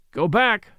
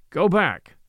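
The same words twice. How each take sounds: First: Louder, firm command; firm order. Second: A louder, unbending repeat; inflexible order. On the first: Suitor ordering his rival back downstairs, firm and louder. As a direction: bar his way with the words. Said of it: "said Hartley, firmly". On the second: Suitor repeating his order to the rival, unbending and louder. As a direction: say it again, immovable. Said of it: "repeated Hartley, inflexibly". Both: A narrator's reading.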